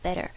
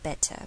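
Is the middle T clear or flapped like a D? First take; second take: flapped; clear. First: The middle T is flapped, like a D. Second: The middle T is a clear T sound. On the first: "我们做美式发音会把TT 变成DD 的声音" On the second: "在英式发音的话TT 就不会变音"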